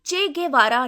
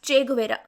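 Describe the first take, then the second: First: The name is said as Che Gevara. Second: The name is said as Che Guvera. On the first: The speaker calls it right. "పలకాల్సింది" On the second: The speaker calls it wrong. "ఈయన పేరు షార్ట్గా"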